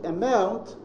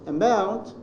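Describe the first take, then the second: Both takes have the same delivery.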